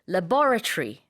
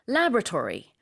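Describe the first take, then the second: First: It is said with a British accent. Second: It is said with an American accent. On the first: "가 영국식 발음이고" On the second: "가 미국식 발음입니다"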